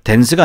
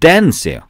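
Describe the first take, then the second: First: The pitch stays level through the word. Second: The pitch rises and then falls. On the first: The speaker calls it wrong. "dance가 아니라" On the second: The speaker calls it right. "올라갔다 내려오는 소리예요"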